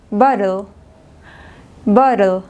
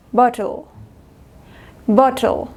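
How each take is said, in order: First: "bottle" with T tapped, like ba-rel; American "bottle", T softened almost to D; American flapped T. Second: "bottle" with a clear true T; British "bottle", bo-tol with crisp T; British hard T. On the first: Teacher contrasting American with British, flapped T in "bottle". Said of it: "Inglés americano". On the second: Teacher contrasting British with American, hard T in "bottle". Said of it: "Inglés británico". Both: Shown as a demonstration.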